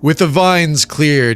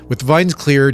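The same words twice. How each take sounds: First: It is read in a put-on character voice. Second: It is read in the speaker's normal voice. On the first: The speaker calls it right. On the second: The speaker calls it wrong.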